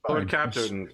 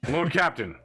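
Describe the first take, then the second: First: It is said in the speaker's normal voice. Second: It is said in a put-on character voice. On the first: The speaker calls it wrong. "I'm not even in character voice right now" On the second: The speaker calls it right. "Give me a second"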